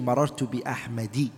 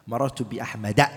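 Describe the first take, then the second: First: The name ends with an 'i' vowel. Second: The name ends with an 'a' vowel. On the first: The speaker calls it wrong. "You can never say marartu bi ahmadi" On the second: The speaker calls it right. "So what do you say?"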